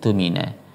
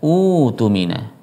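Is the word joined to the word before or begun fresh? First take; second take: joined; begun fresh. First: The word runs on from the preceding word. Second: The word starts fresh with an initial u vowel. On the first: "Kalau disambung bacanya seperti itu" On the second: "kalau dipisah membacanya adalah"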